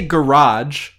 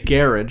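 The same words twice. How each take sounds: First: It is said in an American accent. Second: It is said in a British accent. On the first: "We say garage" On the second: "they say garage"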